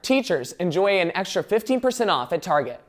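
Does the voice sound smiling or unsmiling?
unsmiling. It is read without a smile, sounding plainer. "to read this without a smile"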